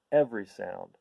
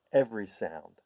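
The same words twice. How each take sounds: The two takes are said the same way.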